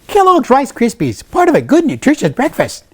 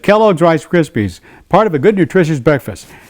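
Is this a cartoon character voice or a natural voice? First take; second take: cartoon voice; natural voice. First: It is said in a put-on cartoon character voice. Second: It is said in his ordinary natural voice. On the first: This is the character. The speaker calls it right. "that's Snap" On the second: This is not the character. The speaker calls it wrong. "if I just did it in my voice"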